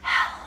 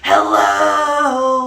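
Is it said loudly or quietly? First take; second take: quietly; loudly. First: It is said very quietly. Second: It is said very loudly.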